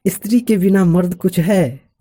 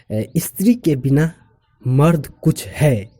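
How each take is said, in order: First: "स्त्री के बिना मर्द कुछ है" in one high run, falling at the end; higher, unbroken challenge through "मर्द कुछ है"; challenging rhetorical question. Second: "स्त्री के बिना", pause, then slow "मर्द कुछ है"; measured statement with pause. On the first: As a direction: doubt that "मर्द कुछ है", no pause after बिना. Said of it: "दूसरे एक्सप्रेशन में बोल रहे हैं". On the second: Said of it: "इसी सेंटेंस को हम दूसरे expression". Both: Shown as a demonstration.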